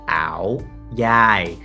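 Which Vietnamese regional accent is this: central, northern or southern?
central. It is said in a central Vietnamese accent.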